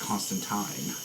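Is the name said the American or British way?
British. The name is said the British way. "everyone else is Constantine"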